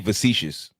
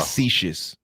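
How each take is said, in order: First: The word begins with a V sound. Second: The word begins with an F sound. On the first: The speaker calls it wrong. "We say facetious with a V" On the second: The speaker calls it right. "but it's"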